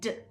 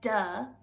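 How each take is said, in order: First: The consonant is said crisply with no vowel. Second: The consonant ends with an added uh vowel. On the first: The speaker calls it right. "it says d" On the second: The speaker calls it wrong. "the D does not say duh"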